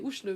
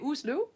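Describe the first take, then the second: First: It is said with an Oslo-dialect 'shl' sound. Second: It is said with a Swedish pronunciation. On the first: "Oslo area they'd say Oslo because the shl is in um, is Oslo dialect" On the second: "in Sweden they would say Oslo"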